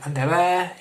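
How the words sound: It is said in Murcian Spanish pronunciation. "aquí en Murcia se dice"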